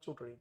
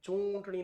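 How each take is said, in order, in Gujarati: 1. પહેલા ઉચ્ચારણમાં અનુનાસિક અવાજ હલકો છે. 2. પહેલા ઉચ્ચારણમાં અનુનાસિક અવાજ ભારે છે. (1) "બસ સિમ્પલ ચૂંટણી" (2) "ચૂંટણી નહીં, મીંડી ઉપર ઘણા ભાર મૂકી દે"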